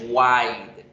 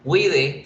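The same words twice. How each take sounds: First: "wide" as one syllable, WYDE; English pronunciation. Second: "Wide" read Spanish-style, WI-DE; two syllables in "Wide", final e sounded; read as written. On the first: Teacher showing pronunciation, one-syllable "wide". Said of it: "en pronunciación se pronuncia". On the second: Teacher showing spelling, "Wide" as wi-de. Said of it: "tiene dos escritas". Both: Shown as a demonstration.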